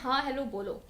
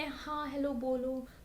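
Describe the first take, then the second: First: It is said at a normal, moderate volume. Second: It is said very quietly and softly. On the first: The speaker calls it right. "Normal tone में" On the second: The speaker calls it wrong. "बहुत धीरे बोले"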